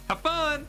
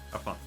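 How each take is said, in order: First: It is said with lively, exclamatory energy. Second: It is said flatly, without energy. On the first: The speaker calls it right. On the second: The speaker calls it wrong.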